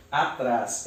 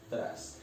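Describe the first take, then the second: First: Said in the usual way. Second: "atrás" split into a, then trás; syllable by syllable. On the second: Shown as a demonstration. Teacher separates the word for the class, "atrás" syllable by syllable. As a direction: break "atrás" in two with a clear pause. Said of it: "eu separo essa palavra assim".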